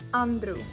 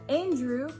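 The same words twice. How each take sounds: First: The R is rolled. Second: The R is plain, not rolled. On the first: This is the Yiddish form of the name. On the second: This is the English form of the name.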